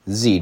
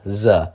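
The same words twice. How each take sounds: First: It is said like German ts. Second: It is said as a plain English z.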